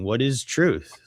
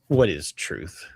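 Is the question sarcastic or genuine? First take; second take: genuine; sarcastic. First: It is asked genuinely. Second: It is asked sarcastically.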